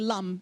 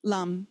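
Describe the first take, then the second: The two takes are said the same way.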